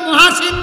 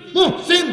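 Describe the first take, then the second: First: It is said as ma-ha-sin, three syllables. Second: It is said as muh-sin, two syllables. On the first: The speaker calls it wrong. "আসলে মহাসিন না" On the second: The speaker calls it right. "নাম কি মুহসিন"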